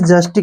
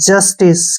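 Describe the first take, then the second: First: The word ends with a 'k' sound. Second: The word ends with an 's' sound. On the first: The speaker calls it wrong. "इसको हमने जस्टिक नहीं पढ़ना है" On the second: The speaker calls it right. "सी का उच्चारण से के रूप में करेंगे"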